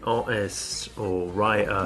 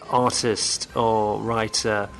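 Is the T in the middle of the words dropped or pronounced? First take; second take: dropped; pronounced. First: The middle T sounds are dropped. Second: The middle T sounds are clearly pronounced. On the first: "my friends tend to say" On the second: "instead of saying"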